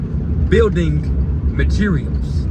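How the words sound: The first word is fully and carefully pronounced. This is said carefully so the automated service understands. The speaker calls it right. "You got to say building materials"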